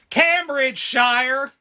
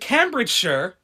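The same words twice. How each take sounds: First: It is said with an American pronunciation. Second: It is said with a British pronunciation.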